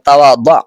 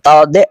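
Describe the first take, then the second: First: The word ends with an 'a' vowel. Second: The word ends with an 'e' vowel. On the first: The speaker calls it right. "সঠিক উচ্চারণ হলো তাওয়াদা" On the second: The speaker calls it wrong. "এখানে আমরা অনেকে ভুল করে থাকি তা হলো আমরা বলে থাকি তাওয়াদে"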